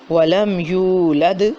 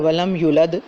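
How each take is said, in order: First: The 'yu' vowel is held long. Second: The 'yu' vowel is cut short. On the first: The speaker calls it right. "इसको एक अलिफ के बराबर लंबा करना था" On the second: The speaker calls it wrong. "जल्दी से पढ़ दिया"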